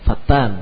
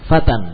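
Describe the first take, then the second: First: The t is doubled and the vowel drawn out. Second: The t is single and the vowel short. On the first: It means a slanderer. The speaker calls it wrong. "tukang fitnah" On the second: It means a young man. The speaker calls it right. "seorang pemuda"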